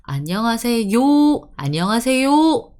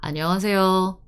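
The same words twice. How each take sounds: First: "안녕하세요" with a loud, fully rounded "yoo" ending; "안녕하세요" with higher, heavily articulated 요; overpronounced final yo. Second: "안녕하세요" with an easy, light 요; "안녕하세요" in easy Seoul style; relaxed final yo. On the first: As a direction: push out the 요 of "안녕하세요" effortfully. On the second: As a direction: end "안녕하세요" lazily, lips barely rounded. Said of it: "Decent enough". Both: Shown as a demonstration.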